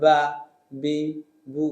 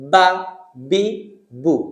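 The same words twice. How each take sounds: First: The b sound is soft and loose. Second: The b sound is sharp and crisp. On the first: The speaker calls it wrong. "উচ্চারণটা এমন বলা যাবে না" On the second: The speaker calls it right. "বা একটু sharp sound, তীক্ষ্ণ টুকা মারার মতো স্পষ্ট এবং তীক্ষ্ণ সাউন্ড"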